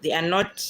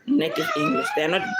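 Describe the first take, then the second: First: Said in the usual way. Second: Much higher, a sudden laughing squeal; laughing outburst. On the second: Real, not acted. Vlogger correcting herself about native English, laughing high. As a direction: let the laugh burst out on it.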